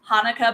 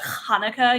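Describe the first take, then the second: First: The opening sound is said plainly, without emphasis. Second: The opening sound is strongly overemphasized. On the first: The speaker calls it wrong. "not Hanukkah" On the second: The speaker calls it right. "overemphasizing, you know, word um, so that you can say it properly"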